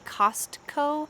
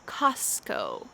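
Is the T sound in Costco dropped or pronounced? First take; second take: pronounced; dropped. First: The T sound is clearly pronounced. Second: The T sound is dropped entirely. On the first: "Sometimes we might say Costco" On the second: "usually we just toss it out"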